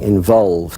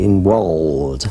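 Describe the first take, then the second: First: It is said with a plain v sound. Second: It is said with w sounds, Russian-accented. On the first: "Instead of saying involved" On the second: "he'd say involved with two W's"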